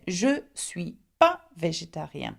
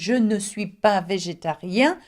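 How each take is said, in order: First: The negative 'ne' is left out entirely. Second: The negative 'ne' is pronounced in full. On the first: "drop the ne" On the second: "instead of saying"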